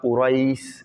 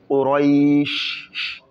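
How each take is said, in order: First: The final sh sound comes out weakly. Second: The final sh sound comes out strongly. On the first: The speaker calls it wrong. "Pas ça. Pas Quraish" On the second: The speaker calls it right. "le chat doit bien sortir"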